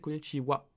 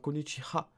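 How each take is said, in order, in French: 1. La dernière syllabe se prononce wa. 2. La dernière syllabe se prononce ha. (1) "mais ça se prononce en japonais Konichiwa" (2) "ça s'écrit avec H A à la fin"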